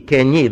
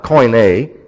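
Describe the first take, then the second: First: The first syllable sounds like 'kee'. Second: The first syllable sounds like 'koy'. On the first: The speaker calls it right. "it's ki, there's the diphthong" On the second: The speaker calls it wrong. "this is mispronounced"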